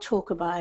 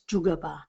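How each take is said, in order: First: The word begins with a 'ch' sound. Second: The word begins with a 'j' sound. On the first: The speaker calls it wrong. "It's not Chokaba at all" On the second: The speaker calls it right. "it's Jugaba is how you pronounce it"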